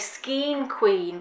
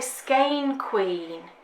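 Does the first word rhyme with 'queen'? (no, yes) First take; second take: yes; no. First: The first word rhymes with queen. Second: The first word does not rhyme with queen. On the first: This is how the other person says it. "you want to say skiing queen because it rhymes" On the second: This is how the speaker says it. "I would say skein queen"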